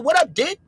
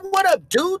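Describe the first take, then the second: First: The last word has a short 'i' vowel. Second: The last word has a long 'oo' vowel. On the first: "They say what up, did?" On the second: "They don't say dude"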